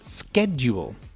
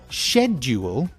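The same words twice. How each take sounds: First: It is said with an American pronunciation. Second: It begins with a 'shed' sound, British style. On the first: "And American is schedule" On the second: "shed, is British"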